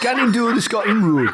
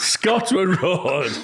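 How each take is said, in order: First: Louder try at Geordie gannon; attempted Geordie. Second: Slow Geordie, Scotland Road; Geordie correction. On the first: Repeating the Geordie line after Alan, attempted Geordie accent. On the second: Shown as a demonstration. Correcting the others' attempt, slow Geordie accent. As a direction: slowly correct them in Geordie. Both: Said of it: "then we'll repeat".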